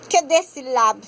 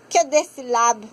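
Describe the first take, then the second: No difference in how they are said.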